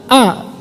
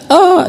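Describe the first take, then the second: First: Said in the usual way. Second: Mock-crying toddler reciting "A"; drawn-out whiny "A", imitating a child; imitated tearful reading. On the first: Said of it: "Saya suruh baca". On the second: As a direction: read "A" through pretend tears. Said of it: "dia nangis gitu. Tapi dibaca".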